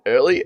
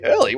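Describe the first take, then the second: First: Said in the usual way. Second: "Early?" jumps much higher in disbelief; incredulous echo. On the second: Real, not acted. Streamer rejecting a chat claim the stoppage was early, incredulous echo. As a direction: throw the word back, can't believe it.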